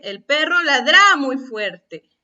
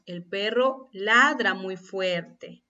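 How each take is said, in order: First: "ladra" as la-DRÁ, loud on the end; wrong final-syllable stress. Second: "ladra" as LA-dra, said slowly; slow correct reading, stress on the "la" of "ladra"; natural first-syllable stress. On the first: Teacher reads the misaccented sentence, "ladra" stressed on its last syllable. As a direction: throw the stress onto the "dra" of "ladra". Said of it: "Así es como pronunciamos esa palabra". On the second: Teacher shows how we say it, "ladra" stressed on its first syllable. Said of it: "¿Cómo decimos?". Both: Shown as a demonstration.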